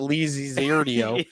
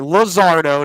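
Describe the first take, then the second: First: The name is drawn out into five syllables. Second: The name is said compactly in three syllables. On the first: The speaker calls it wrong. "not Lizzie Zardio" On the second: The speaker calls it right.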